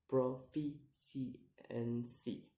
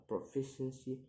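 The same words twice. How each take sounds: First: "proficiency" slowly split into syllables; slow, separated syllables on "proficiency". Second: Said in the usual way. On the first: Shown as a demonstration. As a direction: sound out "proficiency" piece by piece. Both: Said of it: "count the word syllable backwards".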